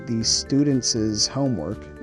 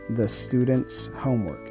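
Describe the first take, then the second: First: An extra syllable is added to the possessive word. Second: No extra syllable is added to the possessive word. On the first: The speaker calls it wrong. "we don't add an extra syllable" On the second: The speaker calls it right. "we simply say"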